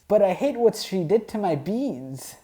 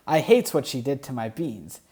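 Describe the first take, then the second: First: Hammed-up hurt, pushed higher on hate; mock-furious about the beans; mock outrage. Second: Said in the usual way.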